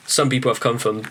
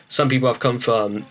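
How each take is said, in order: Both takes have the same delivery.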